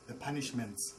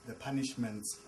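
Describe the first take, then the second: No difference in how they are said.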